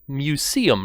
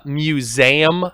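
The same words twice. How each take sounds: First: The middle consonant is an S sound. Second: The middle consonant is a Z sound. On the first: The speaker calls it right. "but it's really a museum" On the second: The speaker calls it wrong. "like it's spelled with a Z"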